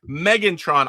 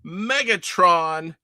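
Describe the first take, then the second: First: It is said with an n before the t. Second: It is said with no n before the t. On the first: The speaker calls it right. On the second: The speaker calls it wrong.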